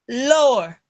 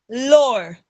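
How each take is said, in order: The two takes are said the same way.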